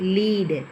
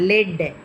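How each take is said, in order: First: The vowel is a long ee sound. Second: The vowel is a short e sound. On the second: "ஆனால் லெட்"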